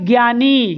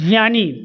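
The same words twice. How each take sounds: First: It begins with a g and y sound. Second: It begins with a j and light y sound. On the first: The speaker calls it wrong. "ये उच्चारण गलत है। आप ये ध्वनि निकालते हैं ज्ञानी या ज्ञान, ग और य की" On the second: The speaker calls it right. "आधा ज और य की हल्की ध्वनि आनी चाहिए"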